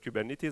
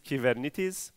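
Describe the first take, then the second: First: The word is pronounced the English way. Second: The word is pronounced the Greek way. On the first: The speaker calls it wrong. "unfortunately everyone says Kubernetes" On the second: The speaker calls it right. "the right way of saying Kubernetes in Greek is Kybernetes"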